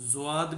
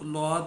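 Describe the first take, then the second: First: It begins with a z sound followed by w. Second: It begins with an l sound. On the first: This is how it is pronounced in the subcontinent. "India और ये जितना भी हमारा ये बर सग़ीर है इनमें इसको ज़्वाद" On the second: This is how it is pronounced in Kerala. "Kerala वगैरह में इसको लौद भी कहते हैं"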